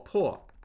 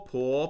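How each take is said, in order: First: The pitch falls sharply from high. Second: The pitch rises from middle to high.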